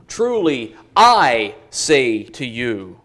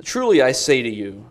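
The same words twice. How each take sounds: First: Slow down, with a heavy beat on "I"; "I" set apart and punched, the rest drawn out; stress on I. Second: Said in the usual way. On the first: Shown as a demonstration. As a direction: make "I" the weighty word, slowly. Really emphatic on the pronoun.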